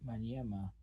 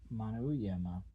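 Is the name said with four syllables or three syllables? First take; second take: three; four. First: The name is said with three syllables. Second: The name is said with four syllables. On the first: This is the usual form of the name. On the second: This is how local people say the name.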